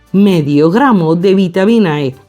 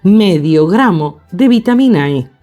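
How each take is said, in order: No difference in how they are said.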